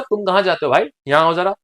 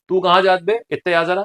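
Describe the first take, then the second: First: Said in the usual way. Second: Short rustic Bundeli demo; Bundeli dialect. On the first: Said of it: "तो मतलब". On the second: Shown as a demonstration. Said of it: "ये हो गया आपका बुंदेली". (बुंदेली लहजे में)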